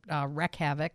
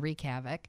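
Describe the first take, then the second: First: The first word rhymes with deck. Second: The first word rhymes with peek. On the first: The speaker calls it wrong. "Kristen's was Wreck Havoc rather than" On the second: The speaker calls it right. "words you've mispronounced forever"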